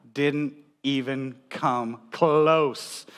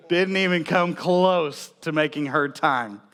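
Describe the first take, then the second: First: Drawn out. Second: Said in the usual way. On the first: Acted. Punchline of dad timing story.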